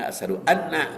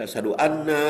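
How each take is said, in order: First: The final vowel of anna is kept short. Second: The final vowel of anna is drawn out long. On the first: It means that I bear witness. The speaker calls it right. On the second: It means that we bear witness. The speaker calls it wrong.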